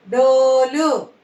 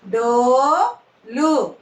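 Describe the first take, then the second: First: Said in the usual way. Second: "డోలు" split, long rising డో, then లు; "డోలు" in two separate syllables. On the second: Shown as a demonstration. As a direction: slowly sound out "డోలు" with a gap. Teacher sounds out syllables.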